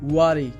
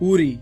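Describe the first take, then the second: First: The first vowel sounds like 'uh' after w. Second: The first vowel sounds like 'oo'. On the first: The speaker calls it right. "এর সঠিক উচ্চারণটি হবে ওয়ারি" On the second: The speaker calls it wrong. "এটি ভুল উচ্চারণ"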